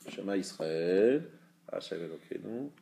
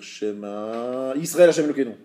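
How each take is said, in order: First: There is a pause after Israël. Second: There is no pause after Israël.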